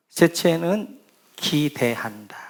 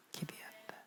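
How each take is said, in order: First: Said in the usual way. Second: 기대한다 breathed in a whisper; whispered echo of 기대한다 for emphasis. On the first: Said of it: "기대한다 (repeated, whispered)". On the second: Shown as a demonstration. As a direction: repeat 기대한다 under the breath, voiceless.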